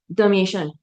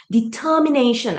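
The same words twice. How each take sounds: First: "determination" rushed and slurred, first syllable swallowed; mumbled. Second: "Determination" louder, every syllable crisp, D and T sharp; clearly articulated. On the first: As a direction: rush through "determination" so the start is lost. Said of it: "Cannot hear clearly". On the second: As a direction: spell out each syllable of "Determination" so the D and T are heard. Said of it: "I can hear the D, I can hear the T". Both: Shown as a demonstration.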